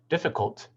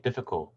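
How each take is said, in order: First: The final consonant sound is clearly pronounced. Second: The final consonant sound is left off. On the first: The speaker calls it right. "Instead of saying difficult" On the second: The speaker calls it wrong. "drop or miss the final consonant phoneme"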